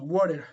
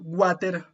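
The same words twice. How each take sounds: First: The word is said with an English accent. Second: The word is said with a Spanish accent. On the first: "decir water en, en inglés" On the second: "decir en español water"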